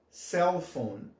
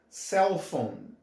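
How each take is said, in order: Both takes have the same delivery.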